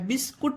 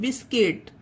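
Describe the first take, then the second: First: The second syllable has an u vowel. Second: The second syllable has an i vowel. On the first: The speaker calls it wrong. "बिस्कुट नहीं" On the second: The speaker calls it right. "यू का उच्चारण नहीं है"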